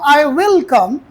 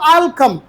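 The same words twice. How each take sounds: First: The word will is said fully and separately. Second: The word will is shortened into I'll. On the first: The sentence becomes emphatic. "जॾहिं full form चयो हुन त इहो जुमिलो automatically छा थी वियो पुट ताक़ीदी" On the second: It is a plain, neutral statement. "हिकिड़ो माण्हू चए थो"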